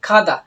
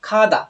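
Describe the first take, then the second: Both takes have the same delivery.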